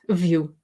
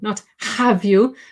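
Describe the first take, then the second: First: 'Have' is reduced to a weak 'of' sound. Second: 'Have' is said in full with a clear vowel. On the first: The speaker calls it right. "Notice the weak form" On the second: The speaker calls it wrong.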